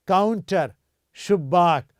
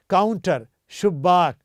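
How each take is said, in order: Both takes have the same delivery.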